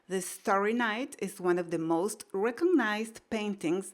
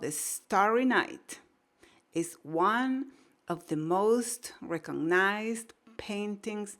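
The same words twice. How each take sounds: First: The sentence is read quickly and fluently. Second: The sentence is read slowly and carefully. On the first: "ya se va a volver más natural"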